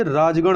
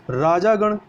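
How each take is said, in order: First: राजगण with no vowel after j; correct form. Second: राजागण with long aa after j; wrong form. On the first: Teacher corrects for learners, राजगण without long aa. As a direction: say राजगण as "raaj-gan". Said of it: "ये राजगण होता है". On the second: Teacher shows the error, राजागण with long "jaa". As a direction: say राजागण as "raajaa-gan". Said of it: "राजागण नहीं होकर". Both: Shown as a demonstration.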